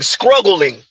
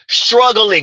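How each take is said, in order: First: The word is said with a K after the s. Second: The word is said with a T after the s. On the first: "Take the T out, put a K" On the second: "Not struggling"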